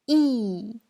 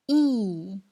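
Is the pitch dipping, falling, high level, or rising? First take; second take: falling; falling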